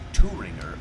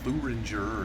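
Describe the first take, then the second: First: The word is given a German pronunciation. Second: The word is given an English pronunciation. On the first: "I think that's how you say it in in German" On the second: "in English, I mean, it starts off with a T H, so I'd probably say"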